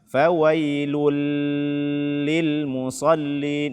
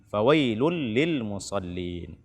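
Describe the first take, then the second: First: The sound before 'lil' is held. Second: The ending merges straight into 'lil'. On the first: The speaker calls it wrong. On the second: The speaker calls it right.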